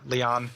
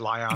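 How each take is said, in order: First: The name sounds like Leon, with an e-sound. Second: The name sounds like Lion, with an eye-sound. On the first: Other people online say it this way. "I've seen people pron- pronounce it as Leon" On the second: This is the way the speakers choose to say it. "but I'll, I'll say Lion"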